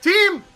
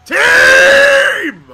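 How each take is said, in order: First: Said in the usual way. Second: High, loud, drawn-out call; yelling for the team. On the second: Real, not acted. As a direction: scream for your teammates, stretching the word. Calling out to the team again.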